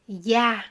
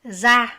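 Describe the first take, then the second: First: It is said the southern way, with y. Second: It is said the northern way, with z.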